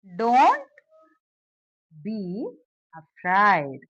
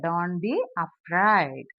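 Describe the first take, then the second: First: Slow dictation, long gaps between words. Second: Said in the usual way. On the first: Shown as a demonstration. Teacher building the translation for learners, word by word. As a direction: give each word on its own, then wait.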